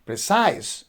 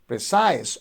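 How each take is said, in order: First: The stress is on the second syllable. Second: The stress is on the second syllable.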